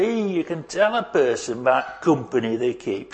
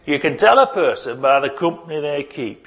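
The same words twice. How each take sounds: First: Put-on light Yorkshire accent, dropping the "the". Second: Said in the usual way. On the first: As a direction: quote gran in a mild Yorkshire accent. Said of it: "in that sort of accent". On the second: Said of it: "she would say".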